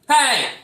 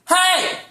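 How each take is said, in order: First: It is called out less loudly. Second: It is shouted very loudly. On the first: "It can be like" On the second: "it doesn't have to be as loud as"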